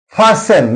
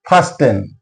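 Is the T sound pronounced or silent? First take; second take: silent; pronounced. First: The T sound is silent in the middle. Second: The T sound is pronounced in the middle. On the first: The speaker calls it right. "T is silent here" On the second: The speaker calls it wrong. "not fasten"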